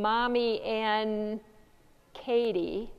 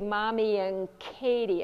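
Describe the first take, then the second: First: The word 'and' ends with an n sound. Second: The word 'and' ends with an ng sound. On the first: "instead of the N" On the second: "It comes out like an N G"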